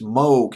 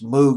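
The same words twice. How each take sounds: First: The word is pronounced the German way. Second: The word is pronounced the English way. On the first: "I think it's Moog in German" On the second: "but it's Moog in English"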